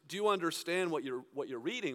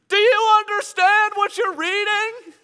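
First: It is said at a normal, quiet level. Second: It is shouted loudly over noise.

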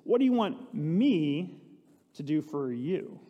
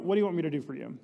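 First: The question is read with strong, marked emphasis. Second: The question is read plainly, without special emphasis. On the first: The asker stresses his own power to help. "I wonder if he put an emphasis" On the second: It is an ordinary, casual question. "I just kind of read it"

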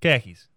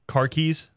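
First: It is said in a Boston accent without the r. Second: It is said in General American with a clear r. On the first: "the way to say it in Boston is say like a pair of khakis" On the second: "if you say like car keys"

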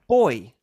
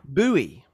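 First: The word has a British pronunciation. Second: The word has an American pronunciation. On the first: The speaker calls it right. "the first version is correct" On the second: The speaker calls it wrong. "the second version is American"

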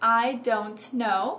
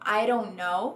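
First: The t sounds are clearly pronounced. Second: The t becomes a quick r-like flap. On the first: "pronunciando os T's" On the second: "ou formando um R"

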